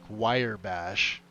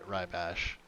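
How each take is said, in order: First: The first word sounds like 'wire'. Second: The first word sounds like 'rye'. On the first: The speaker calls it wrong. "I've heard people call it like wire bash" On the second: The speaker calls it right. "It's it's rye bash"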